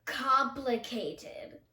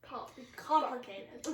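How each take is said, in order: First: Very slow, drawn out. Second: Drawn-out syllables; slow stretched out. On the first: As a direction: stretch every syllable of Complicated. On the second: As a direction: say it slowly, syllable by syllable. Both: Shown as a demonstration. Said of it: "You can make them complicated".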